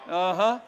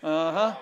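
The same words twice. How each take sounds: The two takes are said the same way.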